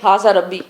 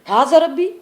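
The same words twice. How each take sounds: First: It is said as a flat statement, falling. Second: It is said as a question, rising.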